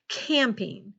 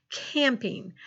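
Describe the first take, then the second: No difference in how they are said.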